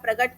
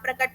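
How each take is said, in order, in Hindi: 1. बीच का व्यंजन 'ग' की ध्वनि है। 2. बीच का व्यंजन 'क' की ध्वनि है। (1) "क का ग कर देना" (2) "क का ग कर देना"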